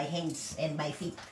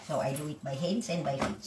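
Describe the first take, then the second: First: "hands and by feet" drawn out slowly, word by word; slowed for clarity. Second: Said in the usual way. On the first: Shown as a demonstration. Explaining how she washes her laundry, slowed down.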